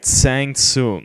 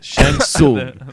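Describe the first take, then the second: First: The first name begins with a 'ts' sound. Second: The first name begins with a 'sh' sound. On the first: The speaker calls it wrong. "when we first came out, we'd call this guy Tsang Tsung" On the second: The speaker calls it right. "That is correct"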